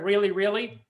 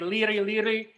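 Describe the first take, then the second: First: The R sound is pronounced as R. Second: The R sound is replaced with an L. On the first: "instead of really really" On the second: "you know how Japanese people say liri liri"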